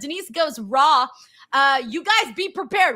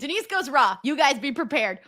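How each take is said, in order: First: There is a pause after Raw. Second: It runs on without a pause after Raw.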